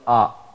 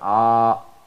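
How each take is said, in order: First: The vowel is held short. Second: The vowel is held long. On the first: "Half of the stretch of the voice" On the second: "So the voice of alif, we all know that ah"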